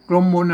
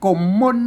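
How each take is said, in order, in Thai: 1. พูดด้วยสำเนียงไทยกลาง 2. พูดด้วยสำเนียงไทยเหนือ (1) "ไม่ใช่กลมมนอ่านแบบไทย" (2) "อ่านว่ากลม"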